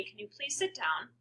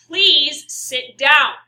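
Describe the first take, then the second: First: Soft, calm polite request. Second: Slow, very loud, frustrated order; upset, angry. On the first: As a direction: ask calmly, without any anger. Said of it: "If I say to you very calmly". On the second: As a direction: order it loudly and angrily, stretching each word. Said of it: "now know that I'm upset or angry or frustrated". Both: Shown as a demonstration.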